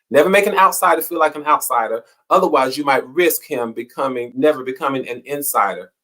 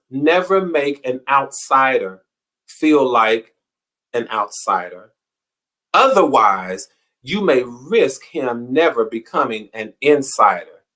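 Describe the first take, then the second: First: Said in the usual way. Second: Slow, deliberate reading of a quote. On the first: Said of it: "repeats quote at normal pace". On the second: Shown as a demonstration. Host reading the quote for May twenty-seventh, slow and deliberate. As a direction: read it out word by word, weighing each phrase. Reads the day's quote slowly.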